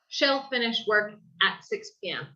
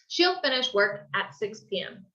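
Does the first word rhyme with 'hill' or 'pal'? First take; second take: pal; hill. First: The first word has an open 'shal' vowel. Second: The first word has a 'sheel' vowel like ill. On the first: The speaker calls it wrong. "a veces yo escucho como eh, las personas dicen como shall" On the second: The speaker calls it right. "es más énfasis en como ill"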